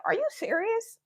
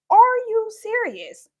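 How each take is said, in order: First: Said in the usual way. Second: Slow, laughing, louder incredulous; laughing disbelief. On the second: Retold or imitated. Repeated with a laugh.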